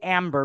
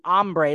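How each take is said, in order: First: The name is pronounced like English 'amber'. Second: The name is pronounced the Spanish way. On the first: This is the form the voice assistant recognizes. "you have to say Amber because that's how Siri says it" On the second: This is the name's real spelling and origin. "actually Ambre, like the Spanish word for hungry"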